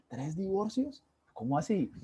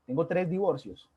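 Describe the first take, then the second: First: Incredulous, pitch jumping up on tres; disbelieving repeat of the news; surprised echo. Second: Said in the usual way. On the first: Retold or imitated. Retelling his shock at the friend's three divorces, incredulous.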